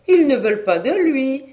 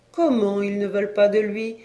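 First: High, loud incredulous exclamation; indignant disbelief. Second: Mildly incredulous question. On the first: Repeats it, more indignant. (exclamation incrédule, haute et forte) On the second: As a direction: ask it in disbelief, lightly. Woman incredulous at boy's rejection. (question légèrement incrédule) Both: A narrator's reading.

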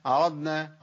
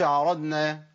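First: عرضنا with ض clear then ن; عرضنا, ض held apart from ن; correct dad before noon. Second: عرضنا with ض merged into ن; عرضنا said like aranna; wrong merged dad. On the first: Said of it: "كده ضغمت". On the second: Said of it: "ما اقولش". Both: Shown as a demonstration.

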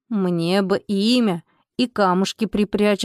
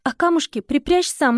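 First: Slow spirit voice. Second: Said in the usual way. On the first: A narrator's reading. House spirit asks a name.

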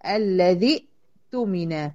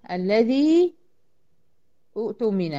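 First: الذي with short i on the dhal, stopped on a hamza, then تمن; joined pronunciation. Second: الذي drawn out with a long final ii, then a break before اؤتمن; words apart. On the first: Teacher demonstrates الذي اؤتمن in connected reading, deliberate. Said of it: "بدخل من الذال المكسورة على الهمزة الساكنة". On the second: Teacher shows the two words before joining, separated. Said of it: "ايه اللي هيحصل هنا؟". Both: Shown as a demonstration.

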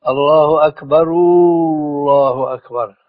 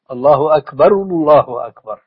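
First: الله أكبر with the final ra vowel drawn out into a long u; wrong, stretched vowel. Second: الله أكبر with a short rounded u on أكبر and no lengthening; short u vowel. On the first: Sheikh showing a wrong drawn-out pronunciation. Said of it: "أنطق فيها خطأ". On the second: Sheikh giving the correct pronunciation after the wrong one. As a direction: round the lips briefly on أكبر, don't stretch it. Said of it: "لابد من ضم". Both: Shown as a demonstration.

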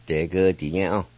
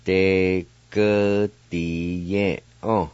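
First: De ge di ye on run together at normal speed; natural pace Cherokee. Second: De ge di ye on drawn out slowly, the ge stretched; slow teaching read of a Cherokee word. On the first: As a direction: say De ge di ye on smoothly in one breath. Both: Shown as a demonstration. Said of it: "now I'll pronounce these words".

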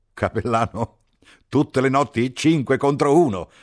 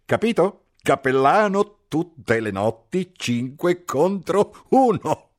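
First: Much higher and louder, jeering at the chaplain; a mocking officer ribbing the priest; teasing captain. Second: Much higher, louder and slow, drawn-out jeer; mocking repeat. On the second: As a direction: rub the joke in, word by word. Captain repeats the joke, slower. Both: A narrator's reading.

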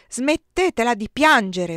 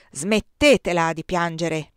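First: Put-on a slow, loud roar at the crying girl. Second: Stern order. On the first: Colonel roars at the weeping girl, loud and slow. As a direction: bellow the order, slowly. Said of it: "Ruggì". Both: A narrator's reading.

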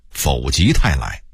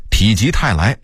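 First: 否极泰来 with 否 as fǒu; misreading. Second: Said in the usual way. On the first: Shown as a demonstration. Narrator owning an old mistake, misreading 否. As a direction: read 否 in 否极泰来 as fǒu, not pǐ. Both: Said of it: "我也很长时间念".

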